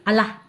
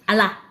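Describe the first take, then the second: No difference in how they are said.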